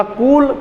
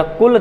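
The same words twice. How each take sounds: First: कूल pulled long on the oo; long-oo कूल, stretched; drawn-out vowel. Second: कुल said with a brief u; short-u कुल, not stretched; short vowel. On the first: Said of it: "कूल खींचकर बोला". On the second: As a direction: clip the u in कुल short, unstressed. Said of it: "कुल धीरे से बोला". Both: Shown as a demonstration.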